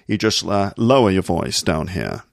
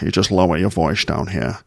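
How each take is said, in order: First: The s sounds are said as plain s. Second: The s sounds are said as sh.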